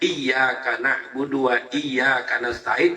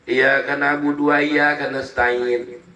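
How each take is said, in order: First: The y sound in iyyaka is held and doubled. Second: The y sound in iyyaka is short and single. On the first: Only to God do we worship. The speaker calls it right. "Hanya kepadamu lah aturannya" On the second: Only to the sun do I worship. The speaker calls it wrong. "nggak ada penekanannya sedikit pun, nggak ada, lempeng aja"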